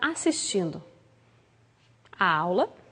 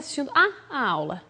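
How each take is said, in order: First: A single 'a' runs straight into 'aula'. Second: Two separate 'a' sounds come before 'aula'.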